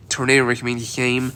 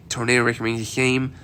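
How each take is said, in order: Both takes have the same delivery.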